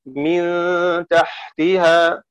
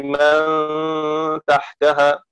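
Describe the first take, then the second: First: من تحتها said as min tahtiha, kasra on the mim and the ta, very slowly. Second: من تحتها said as man tahtaha, fatha on the mim and the ta, slowly. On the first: Teacher demonstrates the kasra reading for students, min tahtiha. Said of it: "بكسر ميم من وخفض تاء تحتها". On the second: Teacher demonstrates the fatha reading for students, man tahtaha. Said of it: "بفتح ميم من ونصب تاء تحتها". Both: Shown as a demonstration.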